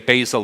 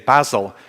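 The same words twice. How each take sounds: First: It is said the American way. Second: It is said the British way. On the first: "You say" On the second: "we say"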